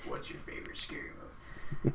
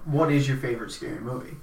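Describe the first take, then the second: First: It is said in a menacing Ghostface voice. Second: It is said in a normal, sincere voice.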